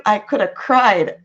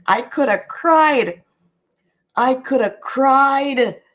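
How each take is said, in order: First: Said in the usual way. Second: Slow, stretched mock despair; slow, drawn-out lament of a mother who nearly cried. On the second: Shown as a demonstration. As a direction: drag it out like you could weep. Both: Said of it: "I'm telling you".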